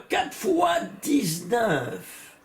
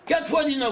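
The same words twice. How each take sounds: First: Each word drawn out slowly, weighing "Quatre fois dix-neuf"; slow emphatic reveal. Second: Said in the usual way. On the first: Shown as a demonstration. Teacher reveals a striking number. (lentement, en détachant « Quatre fois dix-neuf »)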